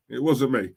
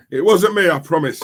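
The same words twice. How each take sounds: First: Said in the usual way. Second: A loud, higher 'It wasn't me', playfully denying; mock protest. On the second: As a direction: cry out your innocence as a joke. Jokey denial of beating Julian.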